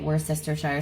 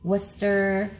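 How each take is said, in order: First: Every written syllable of the word is pronounced. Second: The word is clipped, dropping a syllable. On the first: It follows the spelling. The speaker calls it right. "I just say it how I see it" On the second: Other people say it this way. The speaker calls it wrong. "I hear people say Worcester, but I feel like that completely neglects an entire syllable"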